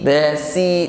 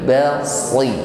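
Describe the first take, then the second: First: The s sound is plain and light. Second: The s sound is emphatic and heavy. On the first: The speaker calls it wrong. "bukan basi basi" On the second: The speaker calls it right. "tetapi basri"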